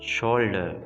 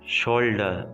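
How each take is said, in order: The two takes are said the same way.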